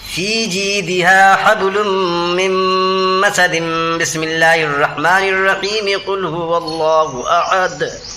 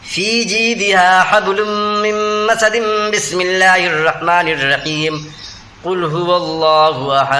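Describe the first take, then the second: First: All three parts are joined in one breath. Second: First part joined, then a pause after Bismillah.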